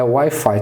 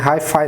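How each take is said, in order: First: The word begins with a W sound. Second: The word begins with an H sound. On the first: The speaker calls it right. "Então é Wi-Fi" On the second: The speaker calls it wrong. "Não é Hi-Fi não"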